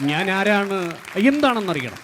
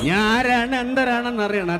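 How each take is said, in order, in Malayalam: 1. ഇത് പഴയകാല സിനിമാ താരത്തിന്റെ ശബ്ദത്തിലാണ്. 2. ഇത് ആധുനിക സിനിമാ താരത്തിന്റെ ശബ്ദത്തിലാണ്. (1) "വർഷങ്ങൾക്ക് മുൻപ് അവതരിപ്പിച്ചിരുന്നെങ്കിൽ എങ്ങനെയായിരിക്കും നമ്മുടെ നസീർ സാറൊക്കെ പറയുന്നത്" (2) "ഇപ്പൊ നമ്മൾ കേട്ടത് ഇക്കാന്റെ ശബ്ദമായിരുന്നു"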